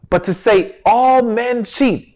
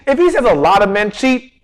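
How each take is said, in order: First: "all" slowed and weighted; slow, pointed "all men cheat"; stress on ALL. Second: Said in the usual way. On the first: Shown as a demonstration. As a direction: lean into "all" deliberately. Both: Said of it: "I stress the word".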